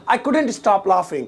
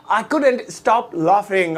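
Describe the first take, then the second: First: Said in the usual way. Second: Very slow, word by word; slow model repeat. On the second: Shown as a demonstration. Teacher repeats the English translation for learners, slow and drawn out. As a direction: stretch out each word, especially "laughing।".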